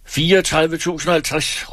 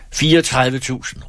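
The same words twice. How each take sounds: First: Much higher, pushing counterbid with stress on og; shouted counterbid. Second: Higher, firm bid called across the room. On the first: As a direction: top the bid with a sharp call. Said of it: "råbte Christen Fagerholt". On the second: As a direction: call the bid out to the auctioneer. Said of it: "råbte han". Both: A narrator's reading.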